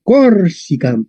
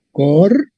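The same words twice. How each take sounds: First: "Corsica" joined up, stressed on COR; stress on first syllable. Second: "Corsica" broken into Cor, si, cam with long gaps; syllable by syllable. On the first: Teacher applying the short-penult rule, stress on COR in "Corsica". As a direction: say "Corsica" as one word, COR-si-cam. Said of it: "la penúltima es corta". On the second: Teacher spelling out the Latin word, syllable by syllable. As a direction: sound out "Corsica" in three separate syllables. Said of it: "Entonces sería Corsica". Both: Shown as a demonstration.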